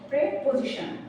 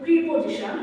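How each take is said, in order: First: The first syllable has an 'eh' vowel. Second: The first syllable has an 'ee' vowel. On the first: The speaker calls it right. "আসলে এটা সঠিক উচ্চারণ হবে প্রেপোজিশন" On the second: The speaker calls it wrong. "অনেকে বলি প্রিপোজিশন"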